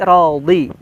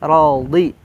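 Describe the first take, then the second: No difference in how they are said.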